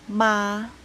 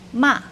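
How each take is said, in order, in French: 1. La hauteur reste haute et égale. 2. La hauteur chute brusquement depuis le haut. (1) "Premier ton, c'est le ton O, assez élevé dans la voix et égal" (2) "Quatrième ton, c'est le ton descendant"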